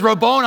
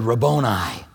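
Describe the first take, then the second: First: Mary overjoyed to see Jesus; excited recognition. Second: Hushed recognition. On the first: Retold or imitated. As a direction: cry it out as you rush to him. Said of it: "she grabs him by the neck". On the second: Acted. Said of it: "She turned around and said".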